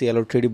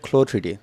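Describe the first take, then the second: First: CLO is spelled out as three separate letters. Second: CLO is said as one word, "klo". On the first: The speaker calls it wrong. "এটাকে সিএলও থ্রিডি বলবেন না" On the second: The speaker calls it right. "এটাকে বলা হয় ক্লো থ্রিডি"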